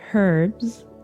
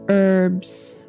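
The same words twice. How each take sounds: First: It is said with a British pronunciation. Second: It is said with an American pronunciation. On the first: "That's what the British say" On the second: "That's what Americans say"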